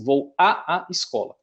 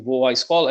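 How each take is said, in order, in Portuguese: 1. Dois sons de 'a' separados são pronunciados um após o outro. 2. As duas vogais a se fundem em uma só. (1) "a gente não fala dessa forma" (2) "na expressão aqui"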